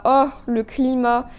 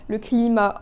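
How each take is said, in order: First: Slower, longing "oh, le climat"; fond sigh. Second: Said in the usual way. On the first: Real, not acted. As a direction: linger on "le climat" with nostalgia.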